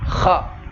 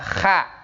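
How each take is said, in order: First: The sound is heavy, with the tongue back raised. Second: The sound is light, without a raised tongue back. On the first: The speaker calls it right. "diangkat ke atas lidahnya" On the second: The speaker calls it wrong. "nggak bisa dibaca kalau hanya dibaca kha"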